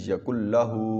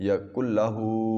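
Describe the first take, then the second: No difference in how they are said.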